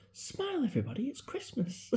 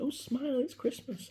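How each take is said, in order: First: High, bright-voiced imitation of grandma; grandma's cheery order. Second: High sing-song mock of a lady's greeting; cheery shopper. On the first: Grandson mimics grandma ordering the sick family: high cheery call. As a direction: chirp it high like a cheery old gran. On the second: Man imitates an Asda lady greeting friends: high chirpy call. Stranger in Asda says same line.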